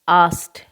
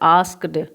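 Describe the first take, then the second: First: It ends with a plain t, no k. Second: It ends with a clear k and d. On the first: The speaker calls it right. "इसका pronunciation ध्यान रखोगे" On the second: The speaker calls it wrong. "This is not called आस्क्ड"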